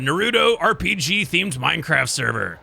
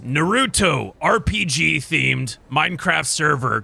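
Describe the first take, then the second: First: It is read at normal speed. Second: It is said slowly, word by word.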